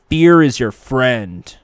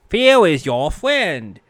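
First: It is said in his normal speaking voice. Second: It is said in a cartoonish put-on voice.

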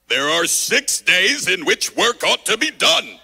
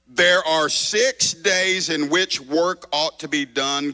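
First: It is said in an exaggerated put-on character voice. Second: It is said in the speaker's ordinary reading voice. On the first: "I'm going to do my Pharisee voice" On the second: "I'm going to read it normally so you don't get distracted"

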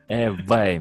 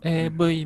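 First: The V is said as an English V sound. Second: The V is said like a Japanese B sound. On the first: The speaker calls it right. "そのAV みたいなことがでしょ" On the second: The speaker calls it wrong. "AV みたいなことがじゃなくて"

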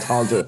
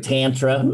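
First: It is said in a British accent. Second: It is said in an American accent.

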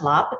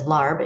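First: The word ends with a p sound. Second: The word ends with a b sound. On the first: The speaker calls it right. "but it's pronounced lop" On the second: The speaker calls it wrong. "many pronounce it as larb"

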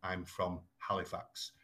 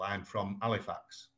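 First: The h at the start of Halifax is pronounced. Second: The h at the start of Halifax is dropped. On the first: "as opposed to saying" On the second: "We also commonly drop our H's. So it would be very common for me to say"

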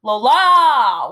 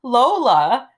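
First: The second syllable is held out long. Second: The first syllable is stressed, the second quick.

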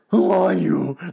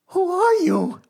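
First: It is said in a low, calm voice. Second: It is said in a high, panicked voice.

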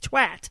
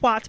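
First: The word is said a non-American way. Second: The word is said the American way. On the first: The speaker calls it right. "but it's twat" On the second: The speaker calls it wrong. "I don't know why Americans think it's pronounced twat"

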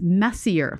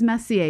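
First: The name sounds like the English word 'messier'. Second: The name is said the French way, ending 'ay'. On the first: "you see it as Messier, like your messier bedroom" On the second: "you don't see it as Messier"

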